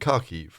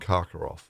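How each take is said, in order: First: The name ends with a 'kiv' sound. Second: The name ends with a 'kov' sound. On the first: This is the Ukrainian form of the name. "the Ukrainian ones are" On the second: This is the Russian form of the name. "those are the uh, the Russian pronunciations"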